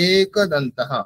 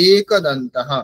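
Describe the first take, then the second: First: The first vowel is held long. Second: The first vowel is held long.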